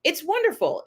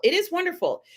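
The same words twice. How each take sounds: First: Said in the usual way. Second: "is" lifted and held apart from "wonderful"; insisting it truly is wonderful, weight on "is"; stress on is. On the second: Shown as a demonstration. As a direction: lean hard on "is" to insist.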